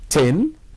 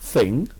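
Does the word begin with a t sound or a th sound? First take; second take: t sound; th sound. First: The word begins with a plain t sound. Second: The word begins with a th sound. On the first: The speaker calls it wrong. "pronouncing thing ... as" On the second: The speaker calls it right. "instead of the correct"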